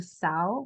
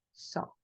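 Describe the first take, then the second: First: "sao" as "sa-o"; "sao" with a full a-o glide; wrong spelling-based reading. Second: "so" said as a plain "so"; "so" with a single o; correct pronunciation. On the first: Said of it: "en lugar de decir sao". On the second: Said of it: "vamos a decir so". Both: Shown as a demonstration.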